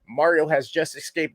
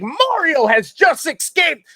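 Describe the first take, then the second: First: It is read in a flat, monotone voice. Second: It is read with lively, emotional expression. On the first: "you can read it in a monotone voice" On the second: "to give uh, emotion and and provide more of an enhancement to that excitement"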